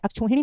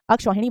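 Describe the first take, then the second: First: अक्षौहिणी with a plain o; अक्षौहिणी mispronounced with o instead of au; wrong o vowel. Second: अक्षौहिणी with an open au; अक्षौहिणी with "kshau" in the middle; correct au vowel. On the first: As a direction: say अक्षौहिणी as "akchhohinee". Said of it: "अक्षौहिणी नहीं बनता". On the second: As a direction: say अक्षौहिणी as "akshauhinee". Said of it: "अक्षौहिणी बनता है". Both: Shown as a demonstration.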